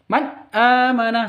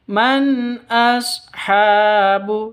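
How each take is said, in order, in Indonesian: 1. Bunyi nun menyatu, tidak dijaga tetap jelas. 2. Bunyi nun dilafalkan dengan jelas dan terpisah. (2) "yang betul man ashabu seperti itu"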